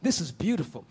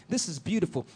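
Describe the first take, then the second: No difference in how they are said.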